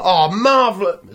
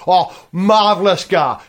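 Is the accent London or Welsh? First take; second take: London; Welsh. First: It is said in a London cab driver accent. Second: It is said in a Cardiff Welsh accent.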